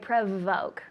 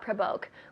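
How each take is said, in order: First: The middle consonant is a V sound. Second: The middle consonant is a B sound. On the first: The speaker calls it right. "We say provoke" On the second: The speaker calls it wrong. "v, not b, not provoke"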